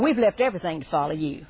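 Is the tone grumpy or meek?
grumpy. It sounds grumpy and complaining. The speaker is cantankerous and demanding. "Peter was so ornery. ... I think he said it like that"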